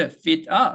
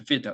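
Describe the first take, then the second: First: "fit 아" with the second vowel held long as a full "ah"; drawn-out full AH. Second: "fit" as feet plus a barely-there "uh"; reduced "of". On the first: Teacher showing learners an overlong vowel, "fit 아" with a drawn-out ah. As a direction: stretch the "아" in "fit 아" instead of reducing it. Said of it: "이때 fit 아 하게 되면". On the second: Teacher modelling reduced "of", "fit" with a tiny trailing schwa. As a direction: keep the vowel after "fit" shorter than a Korean 으. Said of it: "으보다 더 짧아야 돼요". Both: Shown as a demonstration.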